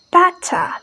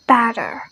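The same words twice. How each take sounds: First: British "Better" with a strong T; "Better" with a hard T and open ending; British pronunciation. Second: American "better" with T turned to D; American pronunciation. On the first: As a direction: say "Better" as "bet-tah", crisp T, no R. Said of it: "it much more stronger". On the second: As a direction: say "better" like "bedder". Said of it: "they change the T sound to D". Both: Shown as a demonstration.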